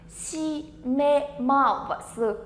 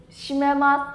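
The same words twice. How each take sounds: First: "Shimemasu" very slow, each syllable held apart. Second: Said in the usual way. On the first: Shown as a demonstration. Teacher introducing word number four to learners, syllable by syllable. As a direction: spell out "Shimemasu" sound by sound.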